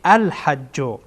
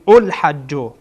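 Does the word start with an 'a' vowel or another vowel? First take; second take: a vowel; other vowel. First: The word begins with the vowel a. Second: The word begins with a vowel other than a. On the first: The speaker calls it right. "فتحه بدهیم یا زر یا زبر بدهیم" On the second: The speaker calls it wrong. "یا میگین الحجو، نه"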